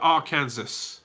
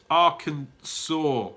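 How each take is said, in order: First: The word ends with a 'sass' sound. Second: The word ends with a 'saw' sound. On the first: The speaker calls it wrong. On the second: The speaker calls it right. "Arkansas should have a W at the end"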